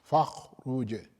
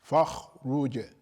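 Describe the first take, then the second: The two takes are said the same way.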